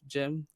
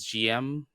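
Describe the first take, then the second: First: It is said as a single word. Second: It is said as two separate letters. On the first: This is how others usually say it. "instead of Jim" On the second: This is how the speaker personally says it. "I pronounce it as G M"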